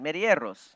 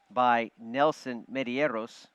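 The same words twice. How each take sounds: First: Medeiros said louder, Spanish style; Spanish accent on Medeiros. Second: Put-on slow Spanish-accented name. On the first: Pretend. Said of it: "You like that?". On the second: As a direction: roll the name in Spanish style. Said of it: "Like that Spanish accent?".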